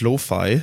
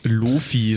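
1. Das Wort wird mit englischen Vokalen ausgesprochen. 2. Das Wort wird mit deutschen Vokalen ausgesprochen. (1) "aber eigentlich ist es Lo-Fi" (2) "so wie die anderen das nennen ... das klingt ein bisschen deutsch"

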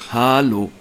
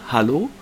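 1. Erster Vokal lang, letzter kurz, cool. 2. Es wird schlicht und neutral gesagt. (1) "also mit 3 A vorne und hinten so einem kurzen O" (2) "jetzt sage ich es normal"

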